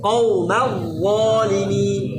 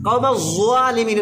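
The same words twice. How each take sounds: First: The z sound is made with the tongue between teeth. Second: The z sound is made with the tongue kept inside. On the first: The speaker calls it right. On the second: The speaker calls it wrong.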